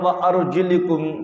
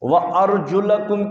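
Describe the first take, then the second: First: The vowel after the L sound is 'i'. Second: The vowel after the L sound is 'a'. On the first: The feet are to be wiped. "लाम के नीचे जेर पढ़ते हैं" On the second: The feet are to be washed. "लाम के ऊपर जबर है"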